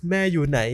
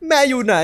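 First: Said in the usual way. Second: High, loud call for mom; high child call. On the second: Acted. A boy calling into the dark house for his mother. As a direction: call out like a scared kid.

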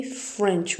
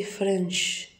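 First: FRENCH ending in a tch sound; correct pronunciation. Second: FRENCH ending in SH, as frensh; wrong pronunciation. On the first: Teacher modelling the right word for learners, CH pronunciation. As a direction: end FRENCH with ch, as in bench. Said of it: "We say French". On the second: Teacher showing learners what not to say, SH mispronunciation. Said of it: "we don't say French". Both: Shown as a demonstration.

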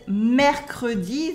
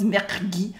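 First: First "mercredi" as "mer-cre-di"; full French schwa. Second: Second "mercredi" crushed to "mercr-di"; impossible E cut. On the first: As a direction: keep the E in "mercredi". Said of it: "never becomes mercredi". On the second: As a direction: force out "mercredi" without its middle E. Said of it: "because we cannot say it". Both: Shown as a demonstration.

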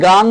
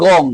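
First: গাং with long "aa"; open GAANG. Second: গং with rounded "o"; rounded GONG. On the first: Teacher retelling a viewer's comment, গাং with open "aa". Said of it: "আপনি গাং বলেছেন". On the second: Teacher retelling a viewer's correction, গং with rounded "o". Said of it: "এটা হবে গং". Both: Retold or imitated.

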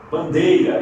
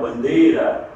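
First: "Bandeira" with the glide "ei"; Portuguese "Bandeira", diphthong in the middle. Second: "bandeira" with a pure e, no glide; Spanish single E in "bandeira"; Spanish bandera. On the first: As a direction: say "Bandeira" as ban-DAY-ra. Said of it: "ditongamos também na penúltima sílaba". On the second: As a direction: say "bandeira" as Spanish ban-DEH-ra. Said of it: "em espanhol bandeira". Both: Shown as a demonstration.

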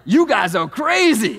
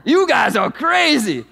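First: Slow, loud cartoon zebra line; toy zebra voice. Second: Slow, loud cartoon zebra catchphrase; toy zebra voice. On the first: Pastor imitating the kids' talking zebra toy, slow and loud. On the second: Pastor mimicking the zebra toy for the congregation, slow and loud. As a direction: stretch it out like the talking toy. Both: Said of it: "And he'd say it just like that".

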